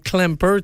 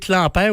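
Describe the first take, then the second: First: The name is pronounced the English way. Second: The name is pronounced the French way.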